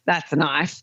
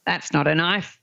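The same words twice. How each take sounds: First: Put-on Australian accent, "that's" punched, "knife" falling to a close; Crocodile Dundee line. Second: Put-on Australian accent, "knife" said with a rising tune; the first half of the knife gag, "knife" lifted at the end; Crocodile Dundee line. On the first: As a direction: deliver the punchline, leaning on "that's". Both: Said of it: "people doing the old".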